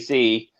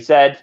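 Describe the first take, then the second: First: The letter is said the American way, zee. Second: The letter is said the British way, zed.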